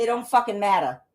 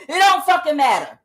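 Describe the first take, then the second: First: Said in the usual way. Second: Higher, louder comic punchline; a loud comedian catchphrase; Kevin Hart impression. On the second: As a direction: belt it out like a stand-up closer. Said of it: "Like Kevin Hart said".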